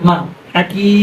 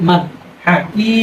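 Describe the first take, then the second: No difference in how they are said.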